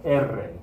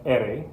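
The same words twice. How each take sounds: First: "R" as Spanish E-rre with a trilled r; rolled erre. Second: "R" as Spanish E-re, tongue flapping once; single-tap ere. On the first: Teacher naming the double-R letter, rolled trill. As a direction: roll the tongue on "R", erre. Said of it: "If you have two R's". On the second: Teacher naming the one-R letter, single tongue flap. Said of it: "If you have one R". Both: Shown as a demonstration.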